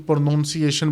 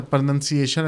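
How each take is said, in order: First: پروننسیشن mispronounced with "noun" in the middle. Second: Said in the usual way. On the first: Shown as a demonstration. Teacher showing students a common mistake, پروننسیشن mispronounced as "pro-noun-siation". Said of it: "اس کو بھی پروننسیشن بولا جاتا ہے". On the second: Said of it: "جب آپ پروناؤنس غلط کریں گے".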